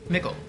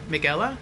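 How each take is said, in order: First: The name is said quickly as two syllables. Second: The name is said slowly with three syllables. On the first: "Say it quickly, like nickel" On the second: "I think it's Mick-Ella"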